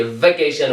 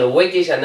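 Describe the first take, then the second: First: وکیشن starting with a V, "vekeyshan"; correct V sound. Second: وکیشن said wrongly with a W, "wekeyshan"; wrong W sound. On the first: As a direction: say وکیشن as "vekeyshan", not "wekeyshan". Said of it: "کوشش کنید که وی تلفظ کنیم". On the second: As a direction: round the lips to start وکیشن, no V. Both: Shown as a demonstration.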